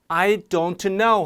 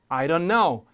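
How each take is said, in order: First: The t in 'don't' is clearly pronounced. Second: The t in 'don't' is dropped. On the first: "하지 않고" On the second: "특히 여기서 t들이 탈락되는 경우가 많아요"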